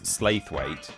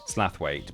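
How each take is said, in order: First: The first syllable sounds like 'slay'. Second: The first syllable sounds like 'slath'. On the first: "one level of pronouncing it completely incorrectly" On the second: "the I is silent apparently"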